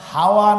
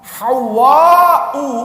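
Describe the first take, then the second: First: The w sound is short and single. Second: The w sound is doubled and held longer. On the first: It is the everyday word for wind. The speaker calls it wrong. "হাওয়া না, হাওয়া মানে বাতাস ভাবিছেন তা না" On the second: It is the name meaning one who gives peace. The speaker calls it right. "ওয়াওয়ের উপরে তাসদীদ"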